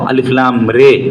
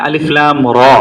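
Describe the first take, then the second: First: The last vowel is fronted toward an 'e' sound. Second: The last vowel is an open 'a' sound.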